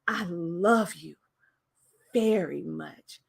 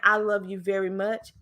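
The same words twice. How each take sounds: First: It is said with feeling and stress. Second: It is said flat, in a monotone. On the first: The speaker calls it right. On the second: The speaker calls it wrong.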